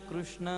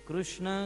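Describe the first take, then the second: Both takes have the same delivery.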